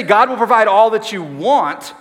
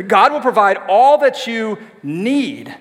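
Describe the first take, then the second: First: «want» pushed loud; stress on want. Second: Slow, «need» weighted; stress on need. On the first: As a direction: lean on want, the wrong word. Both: Shown as a demonstration. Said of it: "It says".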